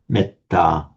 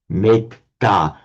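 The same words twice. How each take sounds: First: The first vowel is said short. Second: The first vowel is said long. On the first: This is the normal Pali pronunciation. "the e here becomes short because it's followed by a double consonant" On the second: This is how a Sanskrit speaker would say it. "a Sanskrit speaker looking at the Pali word metta would pronounce it as"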